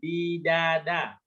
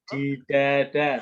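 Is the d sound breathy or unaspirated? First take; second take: unaspirated; breathy. First: The d is released with no puff of air. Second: The d is released with a puff of air. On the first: The speaker calls it right. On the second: The speaker calls it wrong. "itu keluar udara tuh. Bukan"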